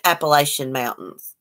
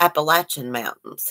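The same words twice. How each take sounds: First: The name is said the way outsiders say it. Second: The name is said the local mountain way. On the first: This is how people from elsewhere say it. "we don't call it" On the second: This is how people who live there say it. "We call it the Appalachian Mountains here"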